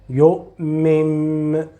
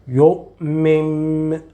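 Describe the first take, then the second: The two takes are said the same way.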